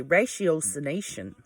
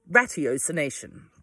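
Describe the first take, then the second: First: Ratiocination said with RAY, like ray-shee-oh-sin-AY-shun; American pronunciation. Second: Ratiocination said with RAT, slowly, rat-ee-oh-sin-AY-shun; British pronunciation. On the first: Explaining how Americans say it, ray-shee-oh-sin-AY-shun. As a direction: start ratiocination with RAY as in ray of light. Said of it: "they say". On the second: Explaining how Brits say it, slow rat-ee-oh-sin-AY-shun. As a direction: start ratiocination with RAT as in rat, unhurried. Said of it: "Britain, they say". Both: Shown as a demonstration.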